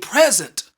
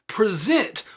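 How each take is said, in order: First: The stress is on the first syllable. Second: The stress is on the last syllable. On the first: It names a gift. "if you stress the first syllable in this word" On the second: It means to demonstrate or show. "if you were to stress the last syllable in this word"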